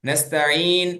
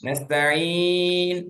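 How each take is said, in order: First: The long vowel is held for a short time. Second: The long vowel is held for a medium time. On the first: "ரெண்டு ஹரக்கா" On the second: "நான்கு ஹரக்கா"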